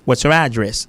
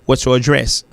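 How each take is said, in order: First: The stress is on the first syllable. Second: The stress is on the second syllable. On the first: "Ça c'est l'américain" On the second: "Ça c'est l'anglais"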